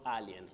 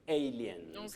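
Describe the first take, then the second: First: The first vowel differs from the letter name A. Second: The first vowel sounds like the letter name A. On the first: The speaker calls it wrong. "not aliens" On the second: The speaker calls it right. "Letter A takes its name as the sound in this word, so you say aliens"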